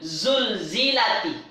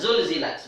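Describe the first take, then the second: First: The word ends in t followed by an i vowel. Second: The word ends in a bare t, no vowel. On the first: The word is joined to the word after it. "Kenapa ini dibaca zulzilati? Dia bersambung dengan lam mati, alif mati. Sebab tu dibantu dengan baris bawah" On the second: This is the basic form of the word. "Asalnya baris mati"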